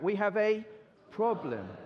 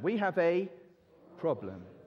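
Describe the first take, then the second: First: It is said with more energy. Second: It is said with little energy.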